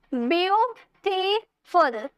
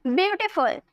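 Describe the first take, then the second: First: "ब्यूटीफुल" slowly as ब्यू, टी, फुल; three drawn-out beats in ब्यूटीफुल, gaps between; syllable by syllable. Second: Said in the usual way. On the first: Shown as a demonstration. Teacher counting syllables, ब्यूटीफुल split slowly in three. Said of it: "तीन syllable आए ना". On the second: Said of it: "अब इसे बोलिए".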